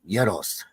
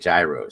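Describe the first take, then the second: First: The word begins with a soft Y sound. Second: The word begins with a hard J sound. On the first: The speaker calls it right. "say it like this, Joe. Euros. It's euros" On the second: The speaker calls it wrong. "when I used to say gyros, she used to get so pissed off at me"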